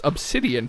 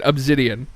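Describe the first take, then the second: First: The middle consonant is a hissing S sound. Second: The middle consonant is a buzzing Z sound. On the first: "I know it's pronounced obsidian" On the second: "I say it with a Z"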